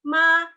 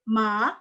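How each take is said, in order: First: The pitch stays high and level. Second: The pitch rises from mid to high. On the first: It means mother. "tone satu itu artinya ibu" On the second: It means sick. "tone dua itu ma, artinya beda lagi, artinya sakit"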